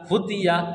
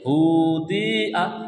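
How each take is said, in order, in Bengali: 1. স্বরধ্বনিগুলো ছোট করে ও তাড়াতাড়ি বলা হয়। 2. স্বরধ্বনিগুলো ধীরে ধীরে টেনে বলা হয়। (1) "কাজ হচ্ছে শব্দকে তাড়াতাড়ি উচ্চারণ করা" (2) "কেউ যদি পড়ে হুদিয়া, তাহলে পড়াটা ভুল হয়ে গেল"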